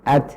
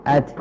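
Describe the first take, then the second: First: The final t ends with a light puff. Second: The same.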